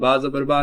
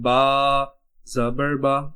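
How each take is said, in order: First: The phrase is said quickly and hurriedly. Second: The phrase is said slowly and carefully. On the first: The speaker calls it wrong. "इसको जल्दी में" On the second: The speaker calls it right. "पहले इसको अच्छे से अदा करें"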